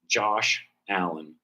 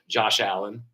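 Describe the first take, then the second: First: The two names are kept cleanly separate. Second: The sh sound runs into the second name. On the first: The speaker calls it right. "pronounce the, the young man's name correctly" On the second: The speaker calls it wrong. "they pronounce it Jaw Shallen"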